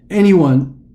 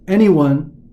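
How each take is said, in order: No difference in how they are said.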